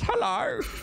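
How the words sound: The voice is high-pitched and cracking. This is how the character ended up sounding from nerves. "my voice went up an octave and it started cracking. So now Otis sounds like this"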